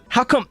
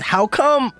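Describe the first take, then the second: First: The pitch stays level on come. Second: The pitch rises on come.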